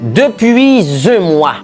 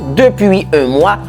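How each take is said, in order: First: The words run together with a linking sound. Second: Every word is pronounced fully and separately. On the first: "ou pourrait sonner plus belle" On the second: "si on dit tout"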